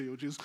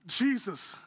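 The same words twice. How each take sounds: First: A much lower, softer "Yo, Jesus", slangy and offhand; casual mock greeting. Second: "Jesus" said plainly and sincerely, no slang; name "Jesus" with simple respect; earnest address. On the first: Preacher repeating the wrong way Peter might have greeted Jesus, offhand. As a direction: mumble "Yo, Jesus" like a throwaway hello. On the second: Pretend. Preacher giving Peter's respectful answer to Jesus, earnest. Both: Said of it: "No, he didn't say".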